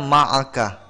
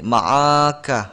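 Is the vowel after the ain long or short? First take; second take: short; long. First: The vowel after the ain is kept short. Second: The vowel after the ain is drawn out long. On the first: The speaker calls it right. "Harusnya ma'aka. Ain di situ tidaklah panjang" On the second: The speaker calls it wrong. "dibaca seperti ini"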